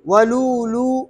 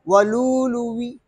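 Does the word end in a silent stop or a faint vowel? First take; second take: silent stop; faint vowel. First: The word ends on a silent consonant stop. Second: The word ends with a faint, partial i-vowel. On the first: "वक्फन क्या पढ़ेंगे" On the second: "हमजा को वाव से तब्दील करेंगे और वाव के जेर में रौम करेंगे"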